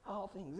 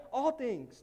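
First: All things dropped much softer; soft repeat. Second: All hit with falling tune; stress on all. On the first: Pastor repeating All things quietly for weight. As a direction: let All things fall away softly. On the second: Pastor stressing All things in the verse. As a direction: lean hard on All. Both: Shown as a demonstration. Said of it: "not just some things".

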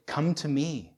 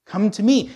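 First: Said in the usual way. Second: Loud, high beckoning call; raised voice, openly inviting. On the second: Acted. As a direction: call someone over from across the street.

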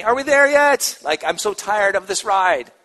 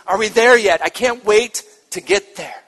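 First: Put-on high, whiny tired kid; backseat whining. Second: Eager, bright and loud; excited child. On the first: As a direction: whine it like a bored child in the car. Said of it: "It can be that whiny". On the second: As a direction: bounce with excitement to arrive. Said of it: "it's that excitement". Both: Shown as a demonstration.

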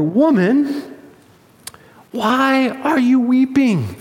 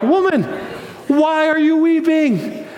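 First: Slow, higher-pitched bewilderment; confused angels. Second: Much higher, elated disbelief; excited angels. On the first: Angels baffled by a weeping Mary at the tomb, confused. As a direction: draw the question out, puzzled and raised. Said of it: "They're confused". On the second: Excited angels ask weeping Mary at the tomb, thrilled. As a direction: exclaim the question high, bursting with good news. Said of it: "they're excited. So naturally". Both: Acted.

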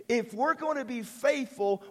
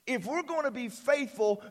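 The two takes are said the same way.

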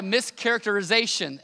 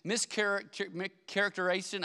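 First: Mischaracterization said whole, every syllable in place; careful, full pronunciation. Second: Mischaracter-, mischaracterization broken off and restarted mid-word; fumbled mischaracterization; stumbling over a long word. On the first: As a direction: land mischaracterization cleanly. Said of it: "I think I said it right". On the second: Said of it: "I can't even say that word". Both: Real, not acted.

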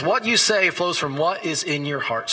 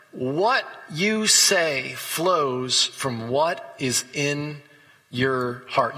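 First: Said in the usual way. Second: Drawn-out, weighty scripture quote; slow emphatic reading. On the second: Acted. Preacher to congregation, reading Jesus' words very slowly. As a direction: lean on every word, very slowly.

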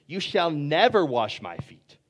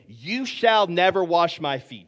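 First: Said in the usual way. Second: Slow, louder, emphatic "You shall never wash my feet"; vehement refusal. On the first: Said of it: "Peter said to him". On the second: Acted. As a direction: lean hard on "shall never" in firm protest. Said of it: "Peter is vehemently saying".

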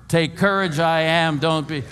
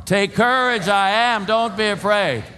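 First: Raised voice, not yet full shout; run together as one word. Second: High, loud rallying shout; louder, storm shout. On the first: Preacher leading congregation, raised voice run as one word. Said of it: "One word". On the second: Preacher rallying congregation in a storm, shouting. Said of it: "a little louder 'cause we're in a storm". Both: Shown as a demonstration.

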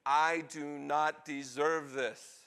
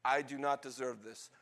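First: Each word drawn out at half speed; slow, emphatic. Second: Said in the usual way. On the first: Acted. Weeping son to kind father, slow and emphatic. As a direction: stretch the plea out word by word.

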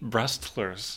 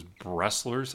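First: "Brestlers" with a T after the s. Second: "Bressler's" with a plain double s, no T; without the T. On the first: Shown as a demonstration. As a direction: sound the T in the middle of "Brestlers". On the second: Real, not acted. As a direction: say "Bressler's" with no T sound after the s. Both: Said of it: "was without the T".

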